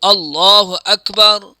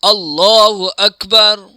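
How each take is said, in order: No difference in how they are said.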